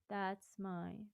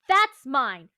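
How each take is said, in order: First: The consonants are spoken very softly. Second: The consonants are spoken hard and sharp. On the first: The speaker calls it wrong. "but like really softly" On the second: The speaker calls it right. "with a sharper consonant"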